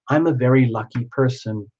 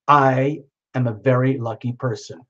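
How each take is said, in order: First: It is said in a plain, ordinary tone. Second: It is said in a defiant, assertive tone.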